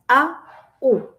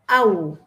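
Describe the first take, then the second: First: The two vowels are said apart with a break. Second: The two vowels glide together as one sound. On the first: The speaker calls it wrong. "no es a, u" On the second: The speaker calls it right. "es au"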